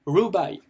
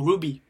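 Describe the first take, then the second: First: Ruby said as "roo-bye"; first variant. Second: Ruby said as "roo-bee"; preferred variant. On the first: Teacher offers two options, ruby pronounced "roo-bye". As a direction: end ruby on an "eye" glide, falling. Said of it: "ou ruby, ça dépend". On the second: Teacher offers two options, ruby pronounced "roo-bee". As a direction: end ruby on a clear "ee". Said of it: "le mieux phonétiquement". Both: Shown as a demonstration.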